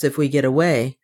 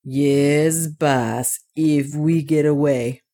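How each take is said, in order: First: Said in the usual way. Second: Lightly voiced dwarf, slowing down; thoughtful dwarf. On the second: A narrator's reading. Otter answering his master, mindful of the ice bridge, thoughtful. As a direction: echo it slowly, with a touch of doubt. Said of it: "bethinking himself of the ice bridge".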